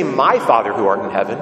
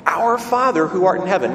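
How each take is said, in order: First: "My" lifted and hit hard; stress on MY. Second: "Our Father" lifted evenly at the start; stress on OUR. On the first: Preacher showing what Jesus doesn't say, stress on My. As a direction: lean on the word My, louder than the rest. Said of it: "he doesn't say". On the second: Preacher answering what Jesus does say, stress on Our Father. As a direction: give Our Father the weight, then ease down. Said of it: "but what?". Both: Shown as a demonstration.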